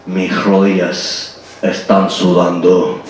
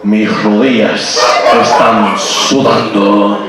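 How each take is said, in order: First: Низким медленным бархатным голосом, как Бандерас; соблазнительно, тихо и медленно, под Бандераса; Antonio Banderas voice. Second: Ещё раз низко и медленно, но сквозь смех; Бандерас, еле сдерживая смех; Antonio Banderas voice again. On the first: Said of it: "my best Antonio Banderas voice". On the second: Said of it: "I'll say it again". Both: Pretend.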